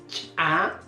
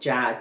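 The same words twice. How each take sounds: First: The ch is released with a sharp explosive pop. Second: The ch is plain, with no extra air. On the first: "el fonema ya reforzado" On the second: "En el caso del simple"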